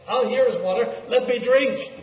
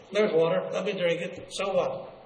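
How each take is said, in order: First: Higher, eager exclamation; impatient sheep. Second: Dismissive. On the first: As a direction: voice a sheep that cannot wait to drink. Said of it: "the sheep were impatient". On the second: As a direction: brush it off casually. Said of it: "they dismiss it with a comment". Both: Acted.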